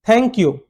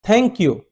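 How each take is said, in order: Both takes have the same delivery.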